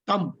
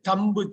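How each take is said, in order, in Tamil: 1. சொல் எந்த 'b' ஒலியும் இல்லாமல் முடிகிறது. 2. முடிவில் 'b' ஒலி உச்சரிக்கப்படுகிறது.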